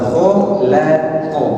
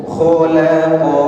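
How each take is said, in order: No difference in how they are said.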